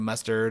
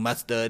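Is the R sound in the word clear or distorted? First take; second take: clear; distorted. First: The R sound is pronounced clearly. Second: The R sound is distorted or missing. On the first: The speaker calls it right. "instead of mustard" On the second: The speaker calls it wrong. "I couldn't pronounce my R's as a kid ... me saying mustard"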